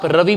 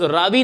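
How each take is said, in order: First: The first vowel is short, like 'ruh-vi'. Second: The first vowel is long, like 'raa-vee'. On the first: The speaker calls it wrong. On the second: The speaker calls it right.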